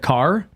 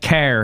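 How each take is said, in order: First: It has a standard A and light R. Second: It has a flat A and thick R.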